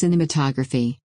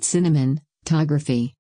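First: No extra n sound is in the middle. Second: An extra n sound is in the middle. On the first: The speaker calls it right. "It's just cinematography" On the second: The speaker calls it wrong. "you've called it cinematography. There's no N in the middle"

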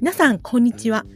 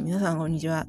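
First: It is said crisply, with clear, distinct articulation. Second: It is said hesitantly, with mumbled, unclear articulation.

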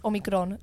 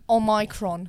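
First: The consonant before 'ron' sounds like a soft G. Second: The consonant before 'ron' sounds like a hard K. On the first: The speaker calls it right. "Like a G. ... but with less pressure on the G" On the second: The speaker calls it wrong. "not Omicron"

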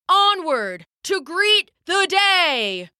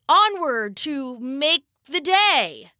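First: It is bellowed loudly in his father's voice. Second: It is said in a shaky, unsure voice.

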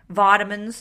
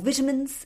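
First: It is said with an Australian pronunciation. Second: It is said with a British pronunciation. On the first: "as we would say in Australia" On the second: "if you're in the UK"

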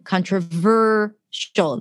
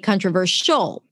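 First: The stress falls on the third syllable, ver. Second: The stress falls on the last syllable. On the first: The speaker calls it right. "the ver sound, the ver syllable" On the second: The speaker calls it wrong. "you put the stress at the end"

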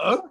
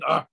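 First: The grunt rises at the end, like a question. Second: The grunt ends flat, as a plain statement.

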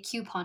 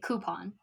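First: The first syllable sounds like cue. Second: The first syllable sounds like coo. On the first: "I don't ever say coupon" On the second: "I say coupon. Because it says coop"

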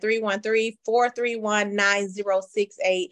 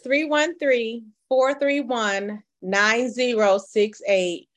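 First: The number is said at normal, quicker speed. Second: The number is said slowly and carefully.

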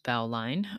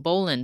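First: The second syllable is said fully, like 'line'. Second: The second syllable is short and reduced. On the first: The speaker calls it wrong. "but not pronounced bowline" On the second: The speaker calls it right. "So bowline"

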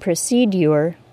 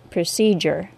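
First: A 'd' then a 'y' sound is heard. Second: A single 'j' sound is heard. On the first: This is the older pronunciation. "was properly pronounced with a D sound followed by the long U" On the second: This is the current normal pronunciation. "the J sound"

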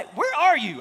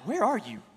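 First: It sounds like calling out to find someone. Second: It sounds pointed, snapping a distracted person back.

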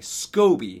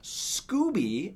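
First: The first vowel sounds like 'oh'. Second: The first vowel sounds like 'oo'. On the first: The speaker calls it right. "SCOBY, not Scooby" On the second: The speaker calls it wrong. "not Scooby, as I've heard some people pronounce it"

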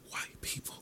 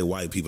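First: It is said in a whisper. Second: It is said in a normal speaking voice. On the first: "like they whisper it" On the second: "they could be talking at this level right here"

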